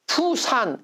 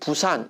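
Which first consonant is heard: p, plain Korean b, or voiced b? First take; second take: p; plain b. First: The word begins with a p sound. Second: The word begins with a plain Korean b. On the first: A foreigner reads the old P spelling. "P라고 표시하면 외국인들이 이걸 읽을 때 어떻게 읽어요? 푸산 이렇게 읽어요" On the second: It is the usual Korean way of saying it. "우리가 보통 이야기하는 부산 이렇게 얘기할 때의 발음"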